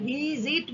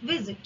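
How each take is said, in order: First: visit drawn out, with জিট given full weight; wrongly stressed last syllable. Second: visit said short, ভি stressed and জিট softened; first syllable stressed. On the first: Teacher showing students what not to say, visit with heavy, long জিট. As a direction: stretch visit slowly, leaning on জিট as a wrong example. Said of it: "অত জোরের সঙ্গে বলছি না". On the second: Teacher giving students the correct word, visit with a light, lower last syllable. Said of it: "ভিটায় জোর দিচ্ছি". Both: Shown as a demonstration.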